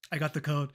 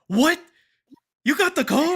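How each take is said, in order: First: Said in the usual way. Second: High, loud stunned question; shocked disbelief. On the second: Retold or imitated. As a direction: friends shocked he got the code, loud disbelief. Friends shocked at news.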